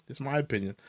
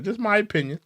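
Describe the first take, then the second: First: Just my opinion, much softer; quiet aside. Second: Higher, teasing Just my opinion; sing-song opinion. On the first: Streamer repeating his verdict, softly under his breath. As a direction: mutter Just my opinion as an afterthought. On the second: Streamer teasing his verdict, sing-song. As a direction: toss off Just my opinion playfully. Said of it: "I think he ratted". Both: Real, not acted.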